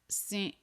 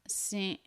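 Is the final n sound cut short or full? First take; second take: cut short; cut short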